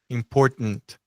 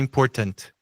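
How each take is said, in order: First: The middle T is swallowed in the throat. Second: The middle T is fully released. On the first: The speaker calls it right. "E a gente come esse T, né? Como se fosse engolir" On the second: The speaker calls it wrong. "Não é important"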